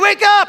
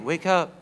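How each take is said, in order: First: It is said loudly and forcefully. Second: It is said softly and calmly.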